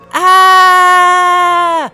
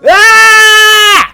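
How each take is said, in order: First: It is a quiet, muffled scream. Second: It is a full, loud yell.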